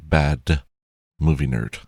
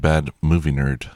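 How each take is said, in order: First: The D in 'bad' is clearly pronounced. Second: The D in 'bad' is barely pronounced. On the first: The speaker calls it right. "That sounds more natural" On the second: The speaker calls it wrong. "I didn't hit the D in bad very much there"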